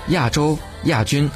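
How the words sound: 亚 is said the mainland way. "内地读作亚"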